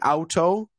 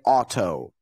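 First: The first vowel sounds like 'ow'. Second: The first vowel sounds like an open 'ah'. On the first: The speaker calls it wrong. "we don't say auto" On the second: The speaker calls it right. "we say auto"

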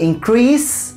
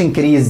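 First: The final consonant is a hissing s sound. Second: The final consonant is a buzzing z sound. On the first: The speaker calls it right. "دايما بقول increase decrease" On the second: The speaker calls it wrong. "ما بقولش increase دي خالص"

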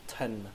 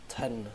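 Both takes have the same delivery.

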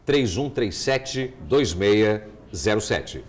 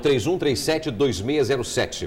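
First: The number is said very slowly. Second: The number is said at normal speed.

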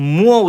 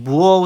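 First: The word begins with an m sound. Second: The word begins with a b-like sound. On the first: "মুয়ো উচ্চারণ করে" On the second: "সেটাকে বুয়ো উচ্চারণ করে"

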